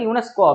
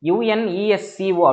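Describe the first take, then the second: First: The letters are blended into a single word. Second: Each letter is said separately, one by one. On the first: The speaker calls it right. "யுனெஸ்கோ அப்படின்னு சொல்றோம்" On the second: The speaker calls it wrong. "யுஎன்இஎஸ்சிஓ அப்படின்னு சொல்ல"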